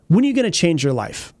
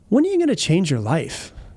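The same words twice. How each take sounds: First: The question is said in an aggressive tone. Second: The question is said in a softer tone. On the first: The listener is being pushed or confronted. The speaker calls it wrong. "that feels kind of aggressive" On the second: The listener is being gently invited to reflect. The speaker calls it right. "it's not as aggressive right there"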